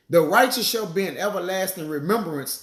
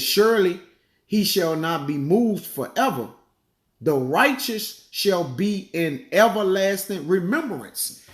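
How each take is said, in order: First: Said in the usual way. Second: Slow, solemn verse reading; scripture reading. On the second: Acted. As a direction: draw out the verse slowly. Reads scripture aloud.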